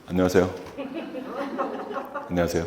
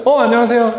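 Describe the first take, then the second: First: Low, soft, lifeless hello; dull, drained hello; flat low greeting. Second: High, cheerful hello; lively welcoming hello; bright greeting. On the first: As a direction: mumble the greeting like you don't care. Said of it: "이렇게 인사했나요?". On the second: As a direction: greet them brightly and warmly. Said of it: "했잖아요". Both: Shown as a demonstration.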